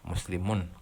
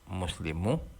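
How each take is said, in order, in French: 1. Le mot se termine par un son n audible. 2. Le mot se termine par une voyelle, sans n. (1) "On entend le son N à la fin" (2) "Si je veux le rendre léger"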